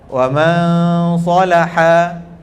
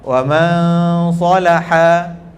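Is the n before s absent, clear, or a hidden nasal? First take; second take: hidden; hidden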